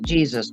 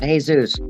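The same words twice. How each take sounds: First: The name is said with English pronunciation. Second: The name is said with Spanish pronunciation. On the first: The speaker calls it right. "He speaks English, so he pronounces it Jesus" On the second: The speaker calls it wrong. "not Jesus"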